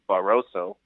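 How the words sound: It has an English accent with an unrolled R.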